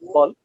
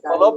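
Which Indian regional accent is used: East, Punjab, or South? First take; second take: East; Punjab. First: It is said in an eastern Indian accent. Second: It is said in a Punjabi accent with an extra vowel. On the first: "come to the middle area like the Odisha, West Bengal" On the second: "The B U L B becomes balab in Punjab"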